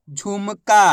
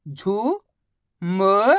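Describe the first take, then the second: First: Said in the usual way. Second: झुमका drawn out very slowly, syllable by syllable; slow syllable stretch. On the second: Shown as a demonstration.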